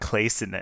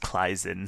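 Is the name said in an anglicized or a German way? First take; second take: anglicized; German. First: The name is said with an anglicized pronunciation. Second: The name is said with a German pronunciation. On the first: The speaker calls it wrong. "I've been saying Clason this whole time out of habit" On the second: The speaker calls it right. "the proper German way to pronounce that is Kleisen"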